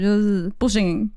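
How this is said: It is said loudly in a firm tone.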